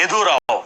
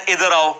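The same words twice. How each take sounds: First: Put-on ادھر آؤ in a light Pindi Pothohari Punjabi accent. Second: Said in the usual way. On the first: Teacher shows students the Pindi Pothohari Punjabi way of saying ادھر آؤ. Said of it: "وہ کہتے ہیں ادھر آؤ". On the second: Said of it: "ہم تو کہتے ہیں نا".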